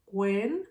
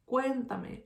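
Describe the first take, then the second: First: "cuéntame" as "cuen... ta... me", pausing between; divided into syllables. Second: Said in the usual way. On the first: Shown as a demonstration. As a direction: say "cuéntame" one separate syllable at a time. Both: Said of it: "I'm gonna divide this word".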